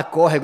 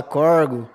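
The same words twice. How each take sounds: First: Said in the usual way. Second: Corgo said in two syllables, cor-go, dropping the middle of córrego; Goiás country word. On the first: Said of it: "eles falam corgo". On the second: Shown as a demonstration. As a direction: clip córrego down to corgo like a local. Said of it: "Eles não falam córrego".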